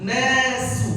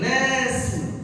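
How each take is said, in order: Both takes have the same delivery.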